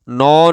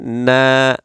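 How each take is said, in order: First: The syllable is said with a thick, heavy sound. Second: The syllable is said with a thin, light sound. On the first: The speaker calls it wrong. "नौ नहीं पढ़ेंगे, मोटा नहीं पढ़ेंगे" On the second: The speaker calls it right. "नून को भी बारीक आवाज में"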